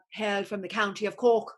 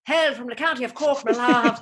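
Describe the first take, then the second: First: Said in the usual way. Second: Loud, higher mock Irish brogue; Irish accent. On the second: Shown as a demonstration. Claiming County Cork roots, in a loud mock Irish accent. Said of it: "though I am Irish".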